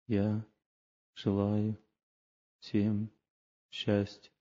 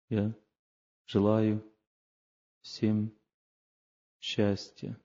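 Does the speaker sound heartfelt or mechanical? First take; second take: mechanical; mechanical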